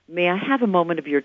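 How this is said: The pitch goes down at the end. The request sounds strong and confident. The speaker calls it right. "listen to the same words spoken instead of going up in pitch, going down"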